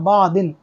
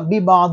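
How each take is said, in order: First: The word starts directly with 'ba', no 'bi'. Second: The word starts with 'bi' before 'ba'. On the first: The speaker calls it wrong. "बा एक गायब ही कर दिया और सीधा पढ़ा बा दिन" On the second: The speaker calls it right. "इन्होंने एक बा नहीं पढ़ा"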